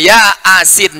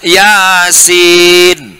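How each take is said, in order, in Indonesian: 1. Dipisah menjadi dua kata yang terpisah. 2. Diucapkan sebagai satu kata yang mengalir. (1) "dibacanya Latinnya ya asin" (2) "tertulis Yasin"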